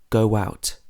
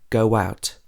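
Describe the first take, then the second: First: A glide sound links go and out. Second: The same.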